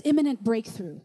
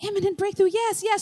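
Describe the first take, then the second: First: Voiced low and measured; God's pronouncement. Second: Lifted, keen agreement; eager confirmation. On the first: God speaking to a praying teenager, low pronouncement. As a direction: drop the pitch for the divine word. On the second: Retold or imitated. Teenager hearing her word confirmed, eager agreement. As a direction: echo it brightly as if recognizing it.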